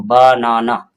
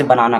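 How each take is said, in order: First: "बनाना" drawn out slowly in three beats, बा, ना, ना; split into syllables. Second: Said in the usual way. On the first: Shown as a demonstration. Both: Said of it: "तीन बार में पढ़ते हैं".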